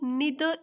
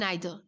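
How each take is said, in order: First: The first vowel sounds like 'ee'. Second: The first vowel sounds like 'eye'. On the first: "बहुत सारे इसको लोग निदर इधर बोलते हैं" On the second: "बहुत सारे लोग नाइदर पढ़ते हैं"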